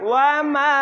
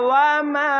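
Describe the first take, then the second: Both takes have the same delivery.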